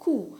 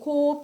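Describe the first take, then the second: First: It has an oo vowel and no p. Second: It has an oh vowel and a final p. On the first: The speaker calls it right. "बल्कि ये simply कू, like सून में" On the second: The speaker calls it wrong. "ये कोप या कॉप नहीं होता"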